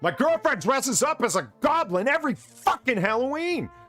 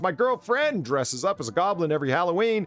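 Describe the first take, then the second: First: It is read in an angry tone. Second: It is read in a calm tone.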